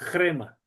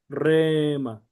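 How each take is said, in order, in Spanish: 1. La palabra empieza con un sonido r aspirado h-r. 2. La palabra empieza con una r simple. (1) "pero sería crema" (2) "Algunos lo pronuncian solamente como rema"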